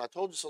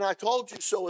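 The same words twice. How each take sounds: First: Loving told-you-so. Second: Loud, higher, gloating "I told you so"; smug told-you-so. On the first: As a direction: say it gently because you care. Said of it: "I love you, I tried to keep you from that". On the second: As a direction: rub it in that you were right. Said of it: "and I don't like you". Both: Shown as a demonstration.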